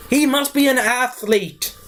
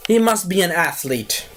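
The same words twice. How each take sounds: First: Higher, slower amazed delivery; mock awe. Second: Said in the usual way. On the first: Shown as a demonstration.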